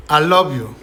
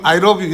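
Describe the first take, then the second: First: "love" with a doubled L, "al-lov-you"; clear L. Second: "love" said with an R, like "rob"; mispronounced L. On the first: Teacher demonstrating the easy L for learners, clear L. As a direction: run "I" into a held L on "love". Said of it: "리을을 발음해주면 L 사운드가 되게 명확해져요". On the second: Teacher imitating learners who can't say L, mispronounced L. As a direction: turn the L in "love" into an R: "rob you". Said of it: "이거 잘 모르면 ... 이러거든". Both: Shown as a demonstration.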